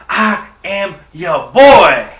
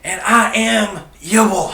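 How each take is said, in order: First: It is said loudly, with more energy. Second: It is said at normal volume.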